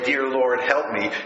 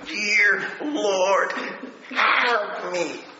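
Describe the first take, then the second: First: It is said plainly, without much feeling. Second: It is said with exaggerated, heartfelt emotion.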